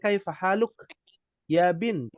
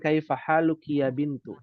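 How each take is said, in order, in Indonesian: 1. Harakat akhir dan akhiran kata dihilangkan. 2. Setiap akhir kata tetap memakai harakat akhirnya. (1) "kalau percakapan mungkin disingkat boleh" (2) "ketika berlatih, maka dibaca harokat semuanya"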